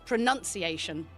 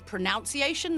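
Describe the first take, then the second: First: The second syllable sounds like 'nun'. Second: The second syllable sounds like 'nounce'. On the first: The speaker calls it right. "if you look at the spelling and actually how it's pronounced, it's pronunciation" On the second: The speaker calls it wrong. "people pronounce it as in pronunciation. They think there's a extra O in there"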